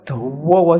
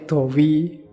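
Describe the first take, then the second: First: It is stretched and intense, East Javanese style. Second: It is said short and flat, Jogja style.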